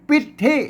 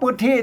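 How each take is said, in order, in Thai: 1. พยางค์แรกมีสระหน้า 'i' ไม่ห่อปาก 2. พยางค์แรกมีสระกลาง 'ue' เสียงวรรณยุกต์สูง (1) "บางที่พวกก็อ่านเป็นปิดที่" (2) "ผมเอาปึ๊ดที่"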